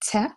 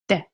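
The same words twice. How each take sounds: First: The t is released with a strong puff of air. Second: The t is released dry, with no puff of air. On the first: The speaker calls it wrong. "with like air and aspiration" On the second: The speaker calls it right. "It's just te"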